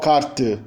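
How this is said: It is said in a Portugal accent. "Em Portugal"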